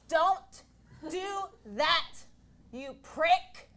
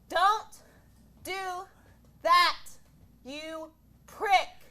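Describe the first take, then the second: First: It is said at a lower pitch. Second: It is said at a higher pitch.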